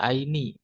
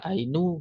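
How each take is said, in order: First: The word ends in the vowel i. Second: The word ends in the vowel u. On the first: "nggak bisa aini" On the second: "nggak bisa ainu"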